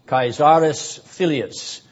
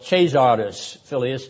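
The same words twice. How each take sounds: First: It uses the classical Latin pronunciation. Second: It uses the ecclesiastical Latin pronunciation. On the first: "depending upon whether you take classical or ecclesiastical pronunciation" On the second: "or ecclesiastical pronunciation of the Latin"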